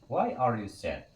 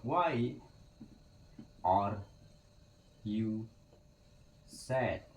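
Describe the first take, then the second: First: Slowed, clear model question; slow teacher model. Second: Each word set apart with pauses; word by word, for learners; slow word-by-word model. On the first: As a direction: say it slowly for the class to copy. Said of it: "teacher says full question". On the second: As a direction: lay out the word order one word at a time. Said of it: "teacher models reversed question word by word". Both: Shown as a demonstration.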